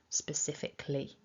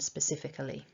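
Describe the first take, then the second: First: It is said with four syllables, dropping a schwa. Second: It is said with five syllables, keeping the schwa. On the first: This is the casual form used informally. "condensing this down into four syllables ... losing that tiny schwa in syllable four" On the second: This is the careful form used when teaching. "rather than specifically"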